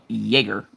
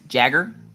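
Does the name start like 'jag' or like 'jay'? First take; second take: jay; jag. First: The first syllable sounds like 'jay'. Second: The first syllable sounds like 'jag'. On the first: The speaker calls it right. "Nope, nope, Jaeger" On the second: The speaker calls it wrong. "they go, Jagger? Nope"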